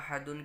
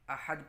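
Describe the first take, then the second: First: The word ends in -dun with a final n. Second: The word ends cut short on d, no n. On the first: The reading continues without a pause. "अहदुन के बजाय" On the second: The reader pauses at the end of the verse. "अहद पढ़ेंगे"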